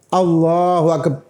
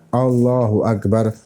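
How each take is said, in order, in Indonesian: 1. Satu bunyi yang wajib dalam frasa ini dihilangkan. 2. Setiap huruf dalam frasa ini diucapkan dengan jelas. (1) "Roknya tidak disebut. Itu tidak sah" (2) "hurufnya betul-betul terjaga dan terucap satu persatu"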